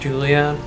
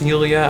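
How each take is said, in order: First: The name begins with a J sound. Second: The name begins with a Y sound. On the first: "if her name is actually pronounced Julia" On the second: "pronounced Yulia"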